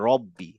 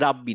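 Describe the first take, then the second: First: The first syllable has a rounded 'ro' vowel. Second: The first syllable has an open 'ra' vowel. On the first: The speaker calls it right. "রা না বলে শুধু র" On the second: The speaker calls it wrong. "আসলে রাব্বি না"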